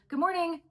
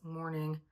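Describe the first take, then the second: First: It is said in a friendly tone. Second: It is said in a grumpy tone.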